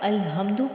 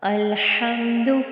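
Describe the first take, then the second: First: The h is a light breathy sound from the chest. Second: The h is a tight raspy sound from the throat. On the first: The speaker calls it wrong. "आपने अगर अलहम्दु पढ़ दिया तो ये गलती है" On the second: The speaker calls it right. "हलक के दरमियान से"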